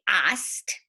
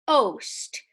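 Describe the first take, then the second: First: The vowel is a short o sound. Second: The vowel is a long o sound. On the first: The speaker calls it wrong. "We don't say ost" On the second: The speaker calls it right. "We say ost. So we put a line over the vowel"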